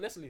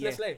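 First: The final e is silent. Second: The final e is pronounced as a vowel. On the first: The speaker calls it wrong. "So it's not Nestle" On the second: The speaker calls it right. "It's an accent on the E. Oh, so it's Nestle"

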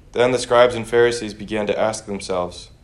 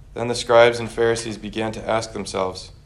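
Both takes have the same delivery.

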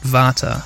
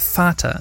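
First: The word begins with a V sound. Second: The word begins with an F sound. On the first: The speaker calls it wrong. "not Vater" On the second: The speaker calls it right. "because V in German is pronounced like F"

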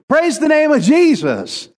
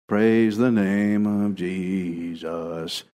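First: It is said with joyful, victorious energy. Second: It is said in a flat, routine way.

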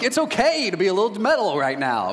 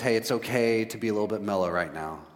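First: It is said in an overly happy tone. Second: It is said in a subdued, somber tone.

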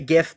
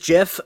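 First: The word starts with a hard G sound. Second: The word starts with a soft J-like sound. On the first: The G stands for graphic. "I like to hold over the hard G" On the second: This is how the creator says it. "the guy who made it says gif"

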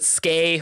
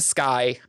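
First: The vowel sounds like the word 'say'. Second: The vowel sounds like the word 'sky'. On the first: The speaker calls it wrong. "Brandon pronounces it Skay, which thumbs down" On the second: The speaker calls it right. "Dominion's vessel is named Sky"

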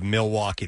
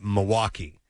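First: The L sound is clearly pronounced in the name. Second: The L sound is dropped from the name. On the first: This is how outsiders say it. The speaker calls it wrong. "instead of Milwaukee" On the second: This is how locals say it. The speaker calls it right. "They kind of throw out the L's"

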